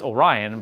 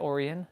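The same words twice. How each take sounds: First: The name is said in the speaker's normal accent. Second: The name is said in an Irish accent.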